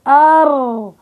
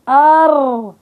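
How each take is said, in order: Both takes have the same delivery.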